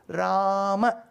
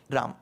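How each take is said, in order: First: The final a vowel is clearly pronounced. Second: The final vowel is dropped, ending on m. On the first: It is the Sanskrit way of saying it. The speaker calls it right. "You have to stress the last letter" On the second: It is the Hindi way of saying it. The speaker calls it wrong. "the last letter somehow will get swallowed"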